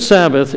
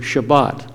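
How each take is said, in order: First: Said in the usual way. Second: Shabbat said the Hebrew way, stress on the last syllable. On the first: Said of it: "an anglicized version of the Hebrew word". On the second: Shown as a demonstration. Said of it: "the Hebrew word".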